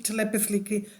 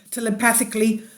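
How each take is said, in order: First: Laughing softly through the corrected word; a quiet chuckle while fixing the word "telepathically". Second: Said in the usual way. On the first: Real, not acted. Speaker laughs at her own slip, softly laughing.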